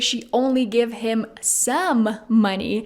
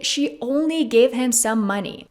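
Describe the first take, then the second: First: The stress falls on the word some. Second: The stress falls on the word only. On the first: She gave just part of the money, not all. "emphasizing the word some" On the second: She gave just a small amount, not a lot. "Emphasizing only"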